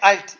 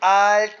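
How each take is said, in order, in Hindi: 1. स्वर छोटा बोला गया है। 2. स्वर लंबा बोला गया है। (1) "डॉट लगा हुआ है इसके नीचे, ये है अल्ट" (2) "ये आल्ट नहीं है"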